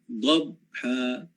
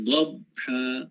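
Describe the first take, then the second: Both takes have the same delivery.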